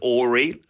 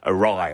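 First: The word ends with an 'ee' sound. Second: The word ends with an 'eye' sound. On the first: The speaker calls it wrong. "I'd always read it Ori" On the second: The speaker calls it right. "So awry, obviously"

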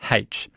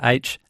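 First: The letter name starts with an h sound. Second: The letter name starts with a vowel sound. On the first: "as H" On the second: "pronounced the letter H"

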